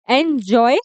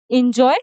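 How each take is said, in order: First: "एंजॉय" opening on a clear "en"; correct pronunciation. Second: "एंजॉय" begun with a quick "in"; mispronunciation. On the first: Teacher showing the right sound, "एंजॉय" said en-joy. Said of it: "वो एन आएगा". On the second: Teacher showing the wrong sound, "एंजॉय" mispronounced in-joy. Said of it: "नहीं आएगा". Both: Shown as a demonstration.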